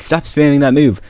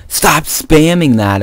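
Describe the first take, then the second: First: Higher, lighter imagined protest; easygoing mock complaint; reasonable objection. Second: Higher, slow mock complaint; mildly exasperated imitation; retold complaint. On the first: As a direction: object mildly, as if laughing it off. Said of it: "like, the reasonable person that you think he'd be". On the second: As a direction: imitate a friend objecting, drawn out. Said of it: "he's like".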